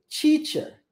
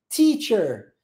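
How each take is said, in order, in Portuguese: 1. Começa com som de ch. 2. Começa com um som de t seco e chiado. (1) "Se você for pronunciar isso seguindo o padrão linguístico do português" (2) "a língua vem atrás do dente, coladinha"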